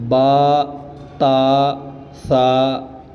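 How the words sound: The letter names end in an 'a' vowel. The speaker calls it right. "बल्कि बा ता सा इस तरह जो है वो इन हरूफ को पढ़ा जाएगा"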